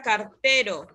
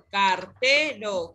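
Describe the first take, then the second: First: Said in the usual way. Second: "cartero" drawn out slowly, syllable by syllable; slow, teacherly split of "cartero". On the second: Shown as a demonstration. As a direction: stretch "cartero" into car-te-ro for a pupil to hear the stress. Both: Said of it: "¿Cuál es la sílaba tónica?".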